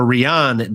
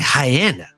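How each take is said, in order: First: The name sounds like the English name Ryan. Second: The name sounds like the word hyena. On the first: The speaker calls it wrong. "I significantly mispronounced this lady" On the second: The speaker calls it right. "sounds like hyena"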